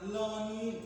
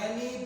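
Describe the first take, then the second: First: The first vowel sounds like o. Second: The first vowel sounds like e. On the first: "bukan Loni" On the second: "Bukan Leni"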